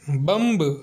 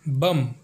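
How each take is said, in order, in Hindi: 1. अंतिम b ध्वनि उच्चारित होती है। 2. अंतिम b ध्वनि मौन रहती है। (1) "इसे बम्ब नहीं पढ़ा जाता" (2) "इसलिए बी साइलेंट है"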